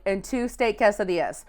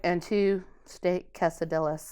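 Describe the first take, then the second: First: Quesadillas with a Y sound for the double L; correct Spanish pronunciation. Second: Quesadillas slow and soft, with hard L's; giving-in mispronunciation. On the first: Drive-thru worker reading back the order, Spanish-style quesadillas. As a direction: say "quesadillas" as keh-sah-DEE-yas. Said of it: "I'm just saying it correctly". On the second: Worker finally giving in to customer, slow quiet quesadillas with L's. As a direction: say "quesadillas" as keh-sah-DILL-uhs, slowly, lower volume. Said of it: "And finally, after a while". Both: Retold or imitated.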